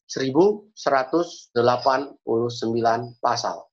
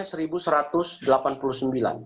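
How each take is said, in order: First: Slow, one number at a time; slow, deliberate repeat. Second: Said in the usual way. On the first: Shown as a demonstration. Preacher repeats a chapter count for listeners, slow and deliberate. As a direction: spell out the figure with pauses between words. Repeats figure slowly for the congregation.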